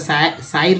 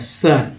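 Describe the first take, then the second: First: The vowel is said like 'eye'. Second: The vowel is said like 'uh'. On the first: The speaker calls it wrong. "आई पढ़ेंगे तो शायर नहीं हो जाता" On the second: The speaker calls it right. "आई को जो है अ पढ़ दिया जाता है"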